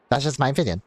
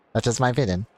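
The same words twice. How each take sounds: The two takes are said the same way.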